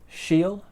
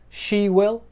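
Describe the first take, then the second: First: Will is reduced to ul, linked to she. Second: The word will is said in full.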